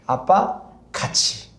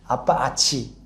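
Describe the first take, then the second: First: The second word is said in full, two syllables. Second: The second word is said without its first consonant. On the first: This is the intended phrase, 'together with dad'. "아빠 같이 해요. 라는 뜻이에요" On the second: A small child is trying to say it. "아빠아치"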